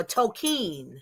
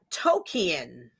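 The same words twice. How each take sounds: First: Tolkien said in two syllables, toh-KEEN; pronunciation variant. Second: Tolkien said in three syllables, TOH-kee-en; pronunciation variant. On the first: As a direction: end Tolkien on one long "keen". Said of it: "Tolkien or". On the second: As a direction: end Tolkien on "kee-en", two separate vowels. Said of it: "J R R Tolkien or". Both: Shown as a demonstration.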